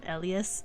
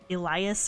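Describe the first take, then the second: First: The name is said the Japanese way. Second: The name is said the English way. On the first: "But in Japanese, they call him Elias, and so that's how I pronounce it" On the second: "If you were to watch it in English, they probably pronounce it like"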